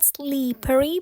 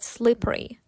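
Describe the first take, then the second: First: The first vowel sounds like a clear 'ee'. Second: The first vowel is a shorter, laxer 'ih'. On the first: The speaker calls it wrong. "Not slippery, Не кажіть це як і звук" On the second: The speaker calls it right. "but slippery"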